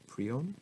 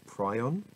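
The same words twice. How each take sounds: First: "Prion" as PREE-on, rising; alternative pronunciation. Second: "Prion" as PRY-on, questioning rise; alternative pronunciation. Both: Shown as a demonstration. Tries two readings of word.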